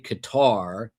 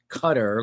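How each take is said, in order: First: The name does not sound like 'cutter'. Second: The name sounds like the word 'cutter'. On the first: The speaker calls it wrong. "Some say Qatar" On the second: The speaker calls it right. "the real correct pronunciation, from what I'm told, is Cutter, like a Coast Guard cutter"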